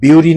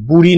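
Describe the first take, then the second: First: The first vowel sounds like yoo. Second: The first vowel sounds like oo. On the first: "বিউরি নয়" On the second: "বুড়ি নয়"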